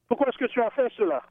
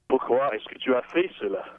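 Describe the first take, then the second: First: It is said in a plain, neutral tone. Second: It is said in a crabby, grumpy tone.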